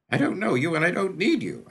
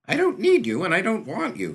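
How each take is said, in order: First: High, loud and defiant, pushing him away; a cornered boy refusing help; defiant kid. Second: A very high, loud shout of rejection; angry refusal. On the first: Acted. Kid defies the stranger. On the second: A narrator's reading. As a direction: fling the words at him and leave. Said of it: "Mont said again, and stalked".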